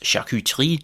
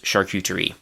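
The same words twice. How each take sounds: First: It is said with a French pronunciation. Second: It is said with an English pronunciation. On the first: "the French pronunciation is charcuterie" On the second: "the English pronunciation is actually, again, pretty close"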